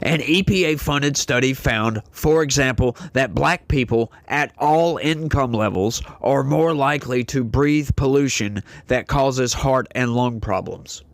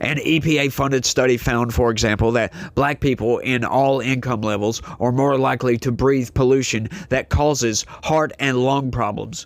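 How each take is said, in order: First: It is read slowly. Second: It is read quickly.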